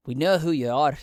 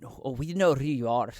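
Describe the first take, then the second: First: Louder threat. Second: Said in the usual way. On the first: Acted. Rebel repeats the accusation.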